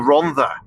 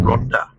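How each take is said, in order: First: The middle consonant is a soft 'th' sound. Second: The middle consonant is a plain 'd' sound. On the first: The speaker calls it right. "two D's make a th" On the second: The speaker calls it wrong. "you're getting it completely wrong"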